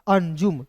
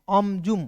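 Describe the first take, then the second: First: The first syllable ends in an 'n' sound. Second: The first syllable ends in an 'm' sound. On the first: "अन के रूप में उच्चारण करेंगे" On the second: "यदि अम के रूप में उच्चारण करेंगे"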